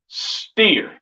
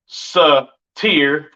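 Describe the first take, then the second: First: The s and t blend together. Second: The s and t are split apart. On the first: The speaker calls it right. "you would say steer" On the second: The speaker calls it wrong. "you wouldn't say satir"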